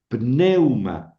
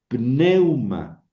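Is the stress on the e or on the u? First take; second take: e; e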